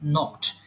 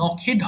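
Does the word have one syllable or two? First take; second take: one; two. First: The word is said as one syllable. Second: The word is said as two syllables. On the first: The speaker calls it right. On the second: The speaker calls it wrong.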